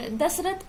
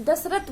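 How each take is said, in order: First: Said in the usual way. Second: "दशरथ" said as dasrat, final th losing its breath; incorrect pronunciation. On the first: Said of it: "दशरथ को दशरथ बोलते हैं". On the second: Shown as a demonstration. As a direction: end "दशरथ" on a bare t. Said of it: "था को ता बोलना होता है". ("दशरथ" में थ को त बोलें)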